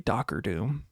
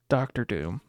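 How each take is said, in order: First: The first word is said as 'Docker'. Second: The first word is said as 'Doctor'. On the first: The speaker calls it wrong. "it's funny to say Docker Doom" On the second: The speaker calls it right. "It is Doc Doctor Doom"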